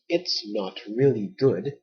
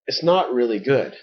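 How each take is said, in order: First: Each word is said separately and carefully. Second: The words are slurred together into one chunk. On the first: "the so-called proper pronunciation" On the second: "we really say"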